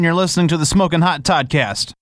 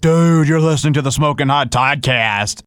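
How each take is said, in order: First: It is said in a plain, ordinary way. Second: It is said in an affected, cool-guy way. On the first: The speaker calls it right. "Say it like you would say" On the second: The speaker calls it wrong. "Don't say it some way cool, like"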